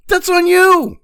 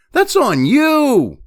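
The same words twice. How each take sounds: First: "that's on you" pitched much higher and louder, falling on "you"; exasperated higher repeat. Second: Drawn-out, stress on "that's", slower and a bit louder; slow emphatic scolding. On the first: Repeating the blame to viewers, higher and louder. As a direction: throw it up high in exasperation. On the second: Scolding careless voters, slow and pointed. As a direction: lean hard on "that's" and spell out "on you". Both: Real, not acted.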